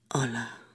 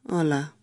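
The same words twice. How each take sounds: First: It is said in a sad tone. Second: It is said in a reluctant, obligatory tone.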